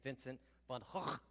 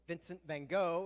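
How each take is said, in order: First: The name is said the Dutch way. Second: The name is said the American way.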